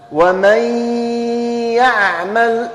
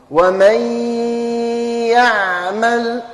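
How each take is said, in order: First: "ومن يعمل" read with the merged n; nasal merge demo. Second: "ومن يعمل" read with a long held nasal ghunna on the merged n; nasal merge demo. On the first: Teacher modelling for pupils to repeat, nasal merge. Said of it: "أنطقوها". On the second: Teacher showing pupils how to read it, with a long ghunna. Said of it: "ونجيب الغنة في نفس الوقت". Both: Shown as a demonstration.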